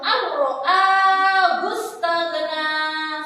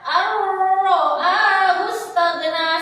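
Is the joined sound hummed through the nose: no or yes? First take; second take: no; yes. First: The sounds merge with no nasal hum. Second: The sounds merge with a nasal hum. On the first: The speaker calls it right. "dimasukkan tanpa mendengung" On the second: The speaker calls it wrong. "Tidak boleh dibaca"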